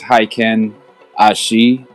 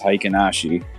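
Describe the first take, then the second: First: There is a pause between the two parts. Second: The two parts run together as one word. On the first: "he says it like with a pause in between" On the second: "like as if it's like only one word"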